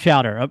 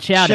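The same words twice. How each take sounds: First: It is said in a plain, unaccented way. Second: It is said in a New England accent. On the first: The speaker calls it wrong. "We didn't say it right" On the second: The speaker calls it right. "You gotta put that New England accent on there"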